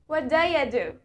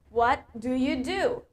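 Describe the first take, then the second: First: Do you is blended into a shortened daya. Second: Do you is said fully as separate words.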